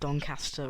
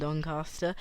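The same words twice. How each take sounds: First: The middle vowel is a short 'a', as in 'cat'. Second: The middle vowel is a long 'ah', as in 'car'. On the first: The speaker calls it right. "It's commonly known as Doncaster" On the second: The speaker calls it wrong. "rather than Doncaster"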